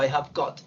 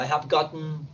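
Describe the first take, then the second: First: "I have got" dicho a la británica, con la t clara; clipped British "I have got"; British English "got". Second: "I have gotten" dicho a la americana, con la t suave; American English "gotten". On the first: ("I have got" con pronunciación británica) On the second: ("I have gotten" con pronunciación americana) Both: Shown as a demonstration. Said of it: "Y en el inglés británico".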